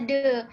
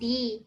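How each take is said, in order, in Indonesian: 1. Vokalnya bunyi 'uh' yang pendek. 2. Vokalnya bunyi 'ee' yang panjang. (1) "kalau bukan ketemu huruf vokal itu dibaca de" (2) "kalau di Yuka itu kan di"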